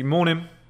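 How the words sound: It sounds firm and assertive.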